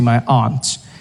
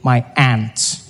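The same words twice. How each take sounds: First: It is said in the speaker's own non-American accent. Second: It is said in an American accent, like ant.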